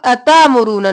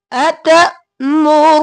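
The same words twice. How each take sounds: First: अतामुरूना with a long a after अत, no catch; wrong pronunciation. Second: अतमुरून with a short stop after अत, slow; correct hamza. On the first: Teacher shows students the wrong अतामुरूना. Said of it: "अब अतामुरूना नहीं करना". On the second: Teacher models the right अतमुरून for students. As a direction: jolt the stop in अतमुरून and draw it out. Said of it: "हमजा जब भी जज़म होगा ऊपर तो हम झटका देंगे". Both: Shown as a demonstration.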